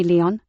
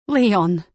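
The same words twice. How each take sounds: First: Said in the usual way. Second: Relieved exclamation with a falling close; Leon! called out, louder, falling at the end; Leon! as a startled, relieved shout of recognition; surprised recognition. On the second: Acted.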